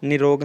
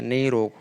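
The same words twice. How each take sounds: First: निरोग with short "ni"; wrong form. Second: निरोग with a drawn-out first vowel, "neerog"; correct form. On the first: Teacher rejecting a spelling, निरोग starting with short "ni". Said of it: "निरोग नहीं होता है". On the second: Teacher giving the correction, निरोग with long "nee". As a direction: lengthen the first syllable of निरोग. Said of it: "निरोग होता है". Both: Shown as a demonstration.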